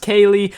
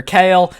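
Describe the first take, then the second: First: "Kaylee" said as KAY-lee; "Kaylee" in two syllables, ending in -lee; two-syllable Kayle. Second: "Kale" said like the vegetable; "Kale" as one syllable, rhyming with tale; one-syllable Kayle. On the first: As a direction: say "Kaylee" with a final ee sound. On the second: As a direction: say "Kale" with no ee at the end. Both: Shown as a demonstration. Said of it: "not sure if it's pronounced".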